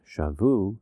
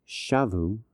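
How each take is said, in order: First: Shavu with the stress on the last syllable, shaVU; slow shavu, accented at the end; stress demo, shifted. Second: Shavu with the stress on the first syllable, SHAvu; shavu, accented at the beginning as a teaching example; stress demo. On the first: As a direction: lean on the VU of shavu, slowly. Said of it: "it's they carried captive". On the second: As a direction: punch the SHA of shavu. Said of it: "it's they returned". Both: Shown as a demonstration.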